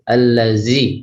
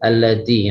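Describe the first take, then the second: First: The middle consonant flows out as a continuous sound. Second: The middle consonant is a short, sharp stop. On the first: The speaker calls it right. "Tapi kalau zal ... sifatnya rikhwah, ... mengalir ketika diucapkan" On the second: The speaker calls it wrong. "Kalau dal"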